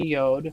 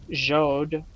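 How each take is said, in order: First: It begins with a Y sound. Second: It begins with a J sound. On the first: The speaker calls it right. "but more properly probably" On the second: The speaker calls it wrong. "might have been pronounced even"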